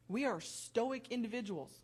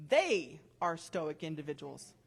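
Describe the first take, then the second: First: Said in the usual way. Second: "They" pressed lower and louder as a correction; stress on THEY. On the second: Real, not acted. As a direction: correct yourself by hitting "They".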